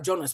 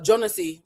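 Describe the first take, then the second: First: The name ends without a final vowel sound. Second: The name ends with a final vowel sound. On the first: The speaker calls it right. "you just pretend the I is not there" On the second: The speaker calls it wrong. "they don't ever pronounce the I at the end of his name"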